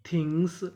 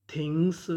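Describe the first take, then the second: No difference in how they are said.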